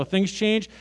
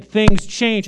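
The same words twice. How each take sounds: First: Said in the usual way. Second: Louder, insistent "Things change"; mock-emphatic repeat. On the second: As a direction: hit "Things change" hard like a slogan. Repeated line, louder mock-earnest take.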